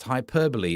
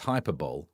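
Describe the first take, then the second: First: The word ends with a 'bolee' sound. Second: The word ends with a 'bowl' sound. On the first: The speaker calls it right. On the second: The speaker calls it wrong.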